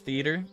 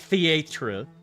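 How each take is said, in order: First: The word is said with an American pronunciation. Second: The word is said with a non-American pronunciation. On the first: "that's how Americans say it" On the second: "We don't say theatre"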